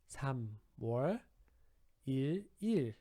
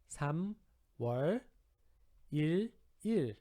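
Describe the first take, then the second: No difference in how they are said.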